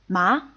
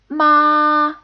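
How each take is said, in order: First: The pitch rises and grows stronger. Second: The pitch stays high and level. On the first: "a rising tone and it gets stronger" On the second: "a high-pitched, flat tone"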